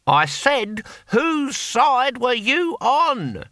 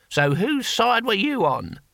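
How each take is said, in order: First: Very slow, high shout for deaf ears; exasperated, drawn-out shouted question; raised repeat. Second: Slow, high questioning voice; drawn-out character question at moderate volume; exasperated comrade. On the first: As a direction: call it out word by word, pitched right up. Repeats louder for deaf comrade. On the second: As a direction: ask it pointedly, stretched out but not shouted. First asking of deaf comrade. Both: A narrator's reading.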